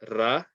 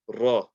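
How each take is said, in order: First: The sound is light, with flat unrounded lips. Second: The sound is heavy, with rounded lips. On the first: The speaker calls it wrong. "don't say Ra. Ra is incorrect" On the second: The speaker calls it right. "round your mouth with the letter Ra"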